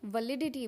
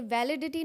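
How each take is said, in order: First: "वैलिडिटी" said vuh-LID-i-ti; reduced first vowel, stressed LID in "वैलिडिटी"; correct pronunciation. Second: "वैलिडिटी" said VAL-i-di-ti; wrong pronunciation. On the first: Teacher corrects learners, "वैलिडिटी" as vuh-LID-i-ti. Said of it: "इसको वैलिडिटी बोलते हैं". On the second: Teacher shows learners the error, "वैलिडिटी" as VAL-i-di-ti. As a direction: open "va" as in van starting "वैलिडिटी". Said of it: "ये वैलिडिटी नहीं होता है". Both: Shown as a demonstration.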